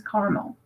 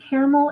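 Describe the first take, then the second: First: Caramel said as CAR-mul; caramel in two syllables, CAR-mul; caramel as carmel. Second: Caramel said as CARE-uh-mel; caramel in three syllables, CARE-uh-mel; caramel, full middle syllable. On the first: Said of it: "sometimes I use caramel". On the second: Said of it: "Sometimes I use caramel and sometimes". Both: Shown as a demonstration.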